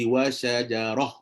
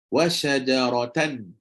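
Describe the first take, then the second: First: The word ends with a soft h sound. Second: The word ends with a nasal -tan sound. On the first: The reciter stops on this word. "Tapi bila berhenti, ta tu terukar jadi ha" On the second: The reciter continues without stopping. "Memang tanwin tu masuk"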